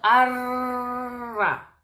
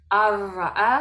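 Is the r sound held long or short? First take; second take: long; short. First: The r sound is held out long. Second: The r sound is short and moves on. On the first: The speaker calls it wrong. "No estamos aguantando el sonido. No estamos diciendo arra" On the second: The speaker calls it right. "Las pronunciamos y seguimos"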